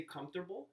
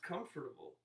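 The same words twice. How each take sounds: First: "comfortable" in three syllables, as COMF-ter-ble; the clipped common pronunciation. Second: "comfortable" in four syllables, as COM-fer-ta-ble; full pronunciation. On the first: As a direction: say "comfortable" the common way, swallowing the OR: KUMF-ter-bul. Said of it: "I've been criticized lately for saying comfortable". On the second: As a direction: say every syllable of "comfortable": CUM-fer-tuh-bul. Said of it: "It's pronounced comfortable". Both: Shown as a demonstration.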